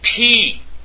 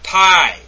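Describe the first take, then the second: First: The letter rhymes with 'see'. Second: The letter rhymes with 'sigh'. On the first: The speaker calls it right. "and it's P" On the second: The speaker calls it wrong. "not pi"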